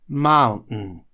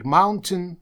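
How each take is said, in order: First: The t is dropped with a short breathy catch. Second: The t is clearly pronounced in the middle. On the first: "выкидывают звуки NT, ... после U делают небольшую такую паузу с придыханием, после чего говорят N" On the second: "это тоже правильное произношение"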